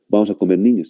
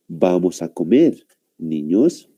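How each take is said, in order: First: It runs on without a pause before niños. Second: There is a pause before niños.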